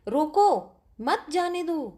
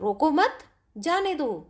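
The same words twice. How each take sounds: First: There is a pause right after 'roko'. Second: There is a pause right after 'mat'. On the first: The listener is told to stop someone. "एक वाक्य में रोकने के लिए कहा जा रहा है" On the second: The listener is told not to stop someone. "दूसरे वाक्य में रोकने के लिए मना किया जा रहा है"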